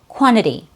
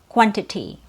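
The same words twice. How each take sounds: First: The first t drops and the second is flapped. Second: Both t sounds are clearly and fully pronounced. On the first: It sounds more native and casual. "the first T as a disappearing T after an N ... the second T is actually a fast D" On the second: It sounds very proper and correct. "instead of quantity, which is also correct"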